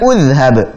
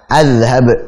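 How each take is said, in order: First: The word begins with a u vowel. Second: The word begins with an a vowel. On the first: "bukan udhhab" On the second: "bukan juga azhab"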